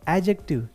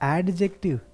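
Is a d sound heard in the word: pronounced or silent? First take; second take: silent; pronounced. First: The d sound is silent in the word. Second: The d sound is pronounced in the word. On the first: The speaker calls it right. "ये एडजेक्टिव है ... डी का जो sound है वो silent है" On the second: The speaker calls it wrong. "इसे लोग एडजेक्टिव पढ़ते हैं"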